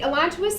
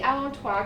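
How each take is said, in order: First: The word is pronounced in an English way. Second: The word is pronounced in a French way. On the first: "I'll just say it that way" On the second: "You should really say allantois because it's a French word"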